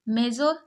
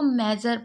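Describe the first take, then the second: First: The last syllable is said with an 'or' sound. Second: The last syllable is said with an 'er' sound. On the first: The speaker calls it wrong. "गलत है" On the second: The speaker calls it right. "इसको मेजर पढ़ते हैं"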